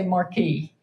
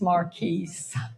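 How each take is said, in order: First: The word has an American pronunciation. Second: The word has a British pronunciation. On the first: This is how an American narrator would say it. "he does not say Marquis" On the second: This shows the narrator is not American. "He says Marquise"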